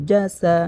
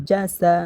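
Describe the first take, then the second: Both takes have the same delivery.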